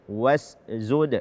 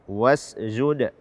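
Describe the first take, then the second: Both takes have the same delivery.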